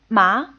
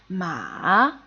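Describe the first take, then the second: First: The pitch rises steadily and grows stronger. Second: The pitch falls low, then rises louder. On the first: "the second tone slowly rises and gets stronger" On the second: "the third tone first falls and then rises"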